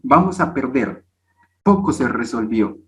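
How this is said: The pause comes after 'perder'.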